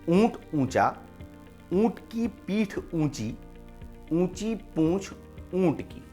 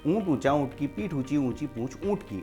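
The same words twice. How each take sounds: First: It is said at a slow, careful pace. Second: It is said at a fast pace.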